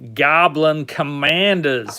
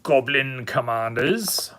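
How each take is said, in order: First: It is said in a put-on American accent. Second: It is said in a non-American accent.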